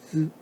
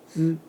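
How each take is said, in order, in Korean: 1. 모음은 울림이 있고 입술을 둥글게 하지 않은 'uh' 소리입니다. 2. 모음은 울림이 있고 입술을 둥글게 하지 않은 'uh' 소리입니다.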